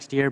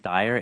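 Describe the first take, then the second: First: The name rhymes with fear. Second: The name rhymes with fire. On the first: The speaker calls it wrong. "It looks like Steer, but parents decide pronunciation" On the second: The speaker calls it right. "the name is Steyer"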